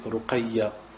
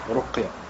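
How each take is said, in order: First: A vowel is heard between the q and y. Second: The q runs straight into y, no vowel. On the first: The speaker calls it wrong. "il y en a qui disent ruqayya, ils ne savent pas prononcer le mot" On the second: The speaker calls it right. "avec une, une soukoun sur le qaf"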